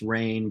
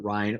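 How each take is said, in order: First: It rhymes with 'train', with no final s. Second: It rhymes with 'line', with no final s. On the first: The speaker calls it right. "it's pronounced Rain" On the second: The speaker calls it wrong. "people will pronounce it Rhine"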